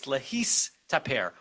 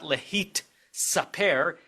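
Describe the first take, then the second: First: "lehis taper" slowly split, s before t; switched lehis taper. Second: "lehit saper" slowly split, t before s; unswitched lehit saper. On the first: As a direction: end "lehis" on a held s, then start "taper" on t. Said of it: "it's lehis taper". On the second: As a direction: stop on the t of "lehit", pause, then start "saper" on s. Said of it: "It's not lehit saper". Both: Shown as a demonstration.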